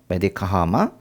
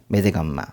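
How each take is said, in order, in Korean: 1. 두 단어를 다 온전히 발음하고, 두 번째 단어 앞에 h를 넣습니다. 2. 단어를 줄여서 이어 붙여 발음하고, h는 없습니다.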